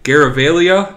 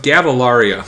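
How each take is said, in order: First: The name starts with 'Gar' and has an R. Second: The name starts with 'Gav' with no early R. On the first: This is the version heard earlier. "I've heard two different pronunciations" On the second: This is the version heard now. "and now it's"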